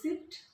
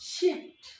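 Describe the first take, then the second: First: The word begins with a plain s sound. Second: The word begins with an sh sound. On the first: The speaker calls it wrong. "আমরা অনেকে এটাকে উচ্চারণ করি সিফট" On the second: The speaker calls it right. "Actually the pronunciation must be শিফট"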